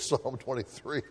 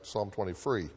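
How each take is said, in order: First: The words sound clear and distinct. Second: The words sound muffled and unclear. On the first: The speaker calls it right. "but it's" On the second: The speaker calls it wrong. "when you're bending over and your chin gets in the way of your mouth, it comes like"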